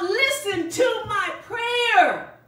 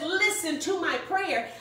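First: Slow, raised cry of "Listen to my prayer"; shouting prayer. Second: Said in the usual way. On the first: Acted. Nehemiah crying out to God, slow raised shout. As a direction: call out slowly to God. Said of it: "he shouts out". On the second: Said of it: "when he says".

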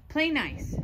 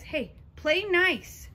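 First: Said in the usual way. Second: Slow, drawn-out "nice" with a falling tune; drawn-out scold. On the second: Shown as a demonstration. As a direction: stretch "nice" out long and let it fall, gently scolding.

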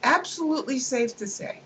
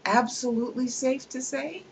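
First: Mock-confident assertion. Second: Incredulous question. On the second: Acted.

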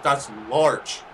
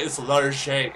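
First: "large" as one English syllable; hard j-sound ending "large"; plain English pronunciation. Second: "Large J" said "lar-ZHAY"; French-style pronunciation. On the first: Driver arguing with a customer, "large" said the English way. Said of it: "not large J". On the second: Customer insisting on his name, "Large J" as "lar-ZHAY". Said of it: "It's French". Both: Retold or imitated.

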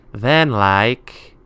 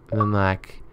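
First: "then like" drawn out with a rising swoop; "then like" slow and lilting, left hanging; emphatic rise. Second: Said in the usual way. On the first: Real, not acted. Repeats with more emphasis.

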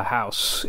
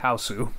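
First: Said in the usual way. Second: Hausu in two syllables, haa-oo-soo; Hausu, the Japanese title said properly; Japanese pronunciation. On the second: Shown as a demonstration. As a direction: say Hausu the Japanese way, ending on a clear su. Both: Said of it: "A K A Hausu".

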